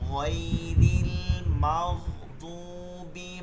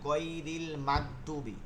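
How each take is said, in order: First: The gh sound is said soft. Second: The gh sound is said hard. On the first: The speaker calls it right. "এগুলো নরম হবে উচ্চারণটা।" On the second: The speaker calls it wrong. "অনেকে গয়ন গুলোকে শক্ত করে ফেলে ... এভাবে হবে না"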